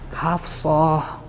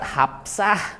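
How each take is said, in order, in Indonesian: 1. Bunyinya f dan s emfatis. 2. Bunyinya p dan s biasa. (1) "Ini bacanya haf Hafsah. Ini kan shad" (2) "itu sudah jadi aksennya Jawa Barat"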